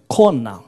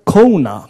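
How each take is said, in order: First: The vowels sound pure and steady, Hawaiian-style. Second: The vowels sound English-style, gliding. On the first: The speaker calls it right. "it's Kona" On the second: The speaker calls it wrong. "it is not Kona"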